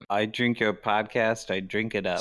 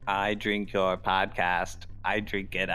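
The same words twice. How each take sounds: First: The voice still has noticeable pitch variation. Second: The voice is mechanical and evenly clipped. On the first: "Still too much, too much inflection" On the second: "now that's just robotic. That's not monotone"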